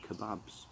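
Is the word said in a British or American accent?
British. It is said in a British accent.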